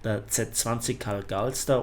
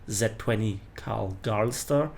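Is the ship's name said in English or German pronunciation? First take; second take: German; English. First: The name is said with German pronunciation. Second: The name is said with English pronunciation. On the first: "the German premium destroyer" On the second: "or in English"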